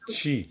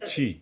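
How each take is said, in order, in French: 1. La syllabe commence par un son ch. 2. La syllabe commence par un son ch.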